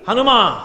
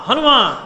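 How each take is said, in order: First: A firm call of the name Hanuma, falling at the end. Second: Hanuma called again, drawn out and falling; louder call. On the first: Garuda calling Hanuma in the cave, firm call. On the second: Garuda calls Hanuma again, stretched-out call. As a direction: call Hanuma a second time, longer. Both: Retold or imitated. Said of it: "అని పిలిచారు".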